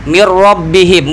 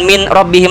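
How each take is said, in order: First: The n sound merges into the following r. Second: The n sound is kept before the r. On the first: The speaker calls it right. "minnya itu hilangkan nun, nunnya karena idgham. Masuk, blebur sama ro" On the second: The speaker calls it wrong. "bukan min robbihim lagi"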